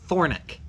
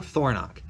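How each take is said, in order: First: The last syllable sounds like 'nick'. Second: The last syllable sounds like 'nock'. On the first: This is how people in western Wyoming say the name. "I've heard them pronounce it Thornick" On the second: This is the speaker's own way of saying the name. "my last name is Thornock"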